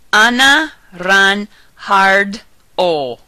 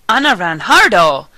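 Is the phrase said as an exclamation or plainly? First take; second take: plain; exclamation. First: It is said plainly, without exclamation. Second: It is said as an excited exclamation. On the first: "Separate the words into four parts" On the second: "And as an exclamation"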